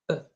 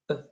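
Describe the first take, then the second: First: The vowel is short and reduced, like 'uh'. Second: The vowel is short and reduced, like 'uh'.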